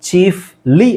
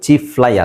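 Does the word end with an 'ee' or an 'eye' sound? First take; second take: ee; eye. First: The word ends with an 'ee' sound. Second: The word ends with an 'eye' sound. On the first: The speaker calls it right. "ಚೀಫ್ಲಿ ಆಗುತ್ತೆ" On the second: The speaker calls it wrong. "ಅದು ಚೀಫ್ ಫ್ಲೈ ಆಗಲ್ಲ"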